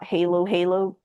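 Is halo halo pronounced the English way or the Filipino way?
English. It is said with an English pronunciation. The speaker calls it wrong.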